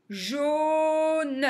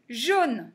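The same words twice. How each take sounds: First: "Jaune" stretched, final "ne" released separately; syllable by syllable. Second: Said in the usual way. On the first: Shown as a demonstration. Teacher reading words for beginners, "Jaune" sounded out. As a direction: hold "Jau", then add "ne".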